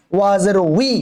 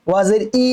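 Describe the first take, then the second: First: "উই" as wi, starting on rounded lips; rounded w onset. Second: "ই" as a bare i with no w; w dropped. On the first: Teacher corrects the mistake, clear wi sound. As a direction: glide from w into a long i on "উই". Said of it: "ওয়াজের জানি ই না হয়". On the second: Teacher shows learners the mistake, bare vowel for waw. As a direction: leave the lip rounding out of "ই". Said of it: "ই না". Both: Shown as a demonstration.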